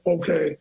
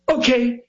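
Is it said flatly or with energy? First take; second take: flat; energetic. First: It is said flatly, without oomph. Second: It is said with a theatrical pop.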